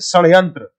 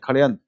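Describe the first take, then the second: First: The word begins with a retroflex 'sh' sound. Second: The word begins with a 'kh' sound. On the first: "मूर्धन्य स का उच्चारण इससे शब्द बनता है जैसे षड्यंत्र" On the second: "बहुत लोग ऐसे बोल देते हैं खड़यंत्र"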